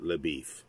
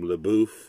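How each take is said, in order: First: The name is said with an anglicized pronunciation. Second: The name is said with a French pronunciation. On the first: This is how the bearer says his own name. "he pronounces it LaBeef" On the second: This is the name's original form. "it's a French name"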